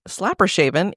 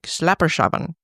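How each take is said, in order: First: The name is said with an English accent. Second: The name is said with a Dutch accent.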